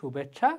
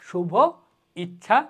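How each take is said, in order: First: One smoothly joined word with no break. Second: Two separate words with a break between them. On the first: The speaker calls it right. "শুনতেও শ্রুতিমধুর হয়, বলতেও সহজ হয়" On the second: The speaker calls it wrong. "মনে হয় থেমে থেমে বলতেছি"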